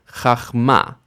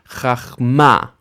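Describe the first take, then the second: The two takes are said the same way.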